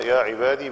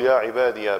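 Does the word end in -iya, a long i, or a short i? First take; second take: long i; -iya. First: The word ends with a long i vowel. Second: The word ends with the syllable ya. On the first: "بسكون الياء" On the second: "بفتح الياء"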